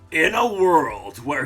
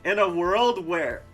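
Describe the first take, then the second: First: It is said in a deep, dramatic trailer voice. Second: It is said in a normal speaking voice. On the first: The speaker calls it right. "That's like the more epic trailer voice" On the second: The speaker calls it wrong. "I meant to do a different voice for this"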